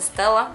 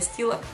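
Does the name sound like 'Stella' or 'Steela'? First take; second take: Stella; Steela. First: The first vowel is short, like in 'Stella'. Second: The first vowel is long, like in 'steel'. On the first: This is how many Americans say the name. The speaker calls it wrong. "многие американцы называют это Stella" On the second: This is how the name really sounds. The speaker calls it right. "на самом деле это Stila"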